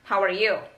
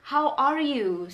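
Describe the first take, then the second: First: It sounds relaxed and casual, without emphasis. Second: It sounds concerned, with strong emphasis.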